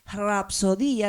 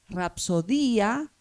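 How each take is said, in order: First: The initial R is breathy, with aspiration. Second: The initial R is plain, without breathiness. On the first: The speaker calls it right. "junto con la R inicial había una aspiración" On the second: The speaker calls it wrong. "no se pronunciaban tan así como les dije yo"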